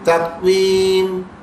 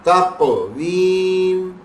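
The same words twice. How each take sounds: First: The q sound is stopped plainly without echo. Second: The q sound is released with an echoing bounce.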